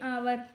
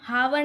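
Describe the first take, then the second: First: The word begins with a vowel sound. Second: The word begins with an h sound. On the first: The speaker calls it right. "बोलते हैं आवर" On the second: The speaker calls it wrong. "हम हावर नहीं बोलते"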